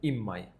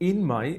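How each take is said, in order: First: Said quickly, the n becomes an m. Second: Said slowly, with a clear n sound.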